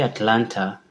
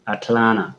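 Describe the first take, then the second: First: The second T is clearly pronounced. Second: The second T is swallowed and dropped. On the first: This is how it is said back home. "that's how we used to pronounce it back at home in Africa, in Kenya" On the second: This is how it is said here. "you swallow the T"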